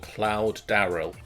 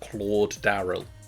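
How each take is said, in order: First: The first name rhymes with 'loud'. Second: The first name has the vowel of 'claw'. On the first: The speaker calls it wrong. "When you read out Cloud, it's like, Cloud? Doubt?" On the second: The speaker calls it right. "Claude actually sounds believable now"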